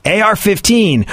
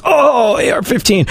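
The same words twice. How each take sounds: First: Said in the usual way. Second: Much higher, swooning over the words; aroused gun lover. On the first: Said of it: "say something like". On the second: Retold or imitated. Texan friend hearing the gun named, mock swooning. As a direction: moan it like a lover's name. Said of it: "pitching a wildly inappropriate".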